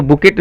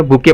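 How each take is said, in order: First: बुकेट with the final T sounded; wrong pronunciation. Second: बुके with a silent T, ending "-kay"; correct pronunciation. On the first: Teacher showing learners the misreading, बुकेट with a sounded T. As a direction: say बुकेट ending on a hard "ket". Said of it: "इसको बुकेट नहीं पढ़ेंगे". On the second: Teacher giving learners the proper reading, बुके without the T. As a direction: say बुके open-ended, no T at the end. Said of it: "बुके पढ़ा जाता है". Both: Shown as a demonstration.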